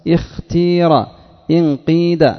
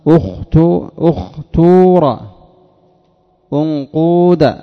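First: The verbs are said with a pure i vowel. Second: The verbs are said with a pure u vowel. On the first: "الكسر الخالص" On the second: "الضم الخالص"

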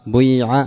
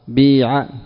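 First: The first vowel is i tinged with u rounding. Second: The first vowel is a pure i sound. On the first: "التي هي إشمام الضم" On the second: "كسر خالص"

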